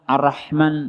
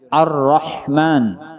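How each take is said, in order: First: The r sound is short and single. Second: The r sound is held and doubled. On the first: The speaker calls it wrong. "jangan dibaca ar-Rahman ar-Rahman nah berarti salah" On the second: The speaker calls it right. "yang bujurnya ar-Rahman"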